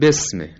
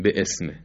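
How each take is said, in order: First: The word runs together without a glottal catch. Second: A glottal catch separates bi from ism. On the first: The speaker calls it right. "میگیم بسمه" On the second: The speaker calls it wrong. "نمیگیم به اسم"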